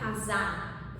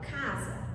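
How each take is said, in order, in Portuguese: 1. A tônica está na última sílaba. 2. A tônica está na primeira sílaba. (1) "eu não falo casar" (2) "porque a penúltima sílaba é a sílaba tônica"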